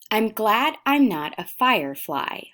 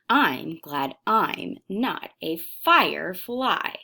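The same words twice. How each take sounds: First: The long-I words get no extra stress. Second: The long-I words are stressed with rhythmic inflection.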